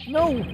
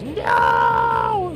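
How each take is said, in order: First: It is said fairly quietly, without much force. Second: It is shouted as loudly as possible.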